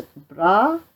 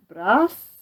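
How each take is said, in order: First: "bras" with the final s silent; French pronunciation. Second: "bras" ending in a clear hissed s; sounded final s. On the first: Reader gives the French for arm, "bras" with silent s. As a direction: say "bras" as "brah". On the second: Reader sets up Pistol's mishearing, "bras" with s sounded. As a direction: say "bras" as "brahss". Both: Shown as a demonstration. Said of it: "But arm is bras".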